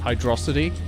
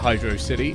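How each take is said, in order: First: It is said as one blended word. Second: It is said as two words, ending in 'city'. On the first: It is the form the name is meant to have. "the word should be pronounced Hydrocity" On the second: It follows the pattern of other zones named after a city. "I would pronounce it Hydro City"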